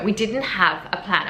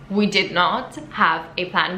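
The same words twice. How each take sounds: First: Said in the usual way. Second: "did not" said slowly, each word separate, "not" leaned on; slow down and hit "not" in "we did not have a plan"; stress on not. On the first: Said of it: "when I say we didn't have a plan". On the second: Shown as a demonstration. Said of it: "when I say we didn't have a plan, we did not have a plan".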